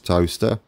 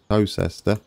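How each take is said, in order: First: It sounds exactly like the word 'toaster'. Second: It is said with a separate 'cester' ending. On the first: The speaker calls it right. "It is toaster. What you what you make your toast in?" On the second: The speaker calls it wrong. "It's not Towcester"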